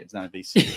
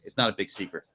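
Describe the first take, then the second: First: "It's not a big secret" laughed with a rising end; laughing sarcasm. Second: Said in the usual way. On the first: Real, not acted. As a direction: scoff at it through a laugh. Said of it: "Yeah, no shit".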